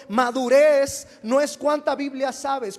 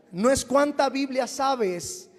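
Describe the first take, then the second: First: "madurez" hit hard, whole line said louder; louder emphatic repeat. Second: Said in the usual way. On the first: Shown as a demonstration. Pastor repeating his point to the church, louder and emphatic. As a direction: drive the point home, louder. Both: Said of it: "Una vez más lo digo".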